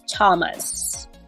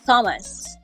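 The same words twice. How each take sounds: First: The name begins with a t sound. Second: The name begins with a th sound. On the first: The speaker calls it right. "it should sound like a T sound" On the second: The speaker calls it wrong. "you don't say"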